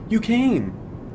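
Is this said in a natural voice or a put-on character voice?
put-on. It is said in a put-on character voice. The speaker calls it right. "I guess that's good enough"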